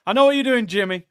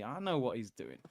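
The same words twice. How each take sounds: First: Higher, louder playful call; teasing call-out. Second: Quiet knowing aside under the breath; half to himself, dropping the voice right down; knowing mutter. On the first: Streamer teasing James directly, loud and playful. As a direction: call him out with a grin. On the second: Streamer muttering to chat that he's onto James. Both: Real, not acted.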